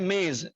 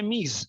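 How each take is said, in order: First: It uses the Indian subcontinent vowel. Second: It uses the standard Persian vowel. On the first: This is the local subcontinent usage. The speaker calls it wrong. "हम लोग बोलते हैं मेज" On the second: This is the standard usage of native speakers. The speaker calls it right. "सही और standard pronunciation है मीज"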